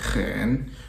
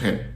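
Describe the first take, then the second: First: The tone is said in its full careful form. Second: The tone simply falls very low. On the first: This is the textbook way to say it. "la manière pédagogique de prononcer le troisième ton" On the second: This is how people say it in everyday speech. "en chinois courant ... on dit hen ... ça tombe très bas"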